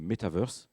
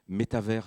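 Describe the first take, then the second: First: It is said with an American pronunciation. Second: It is said with a French pronunciation. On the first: "avec l'accent américain, anglo-saxon" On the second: "c'est en français, c'est comme univers"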